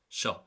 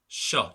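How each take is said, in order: First: The sh sound is short. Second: The sh sound is held long. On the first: "Normally it would just be sh" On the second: "Now I'm elongating it there to make the point"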